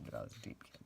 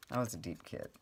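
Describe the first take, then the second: First: A breathless whisper, much softer; whispered aside. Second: Said in the usual way. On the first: Real, not acted. Repeating to herself that she was deep, whispered. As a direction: whisper it to yourself. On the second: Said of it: "Stupid kid, but I was a deep kid".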